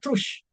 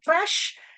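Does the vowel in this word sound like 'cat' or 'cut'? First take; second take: cut; cat. First: The vowel sounds like the one in 'cut'. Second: The vowel sounds like the one in 'cat'. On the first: The speaker calls it wrong. "itu kan pronunciation yang salah" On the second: The speaker calls it right. "dua-duanya kata yang betul"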